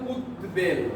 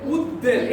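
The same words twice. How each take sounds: First: The b sound is clearly pronounced after d. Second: The b is dropped and the d is doubled. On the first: The speaker calls it right. "বয়ের অর্থ বয়ের মতোই হবে" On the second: The speaker calls it wrong. "এটা হওয়ার কথা"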